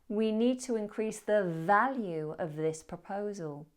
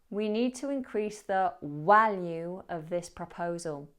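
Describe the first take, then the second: First: Value starts with a V sound. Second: Value starts with a W sound. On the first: The speaker calls it right. "The correct version" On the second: The speaker calls it wrong. "I mispronounced the word value"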